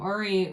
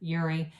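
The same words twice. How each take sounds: First: The name is said in a non-American way. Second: The name is said in an American way.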